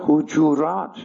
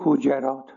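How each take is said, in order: First: It is said with the vowels used in the Quran. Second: It is said with the vowels people commonly use. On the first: This is the form found in the surah itself. The speaker calls it right. "در خود سوره آمده حجرات" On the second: This is how many people say it. The speaker calls it wrong. "ولی اینا میگن که حجرات"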